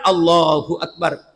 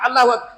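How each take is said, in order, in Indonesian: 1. Frasa ini diucapkan dengan penuh, tanpa dijepit. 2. Frasa ini diucapkan dengan cara terjepit. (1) "Tapi yang benar" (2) "adalah terjepit"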